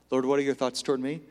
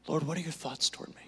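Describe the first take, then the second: First: Said in the usual way. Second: Hushed, quick asking of the Lord; soft quick prayer. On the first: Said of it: "if you say that". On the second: Shown as a demonstration. Preacher modelling a prayer for the congregation, hushed. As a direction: breathe the prayer quietly. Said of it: "Look to him".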